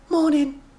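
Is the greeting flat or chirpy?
flat. It is said flatly, without much cheer.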